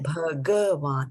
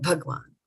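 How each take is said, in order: First: The word has three syllables with a full ga. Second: The word has two syllables, with ga reduced. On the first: This is the Sanskrit pronunciation. The speaker calls it right. "this is full ga" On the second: This is the Hindi pronunciation. The speaker calls it wrong. "not bhagwan"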